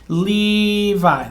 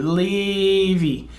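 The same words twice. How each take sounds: First: Levi said as lee-vye; English pronunciation. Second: Levi said as lee-vee, Hebrew style; Hebrew pronunciation. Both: Shown as a demonstration. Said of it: "Levi is actually how it would be in Hebrew".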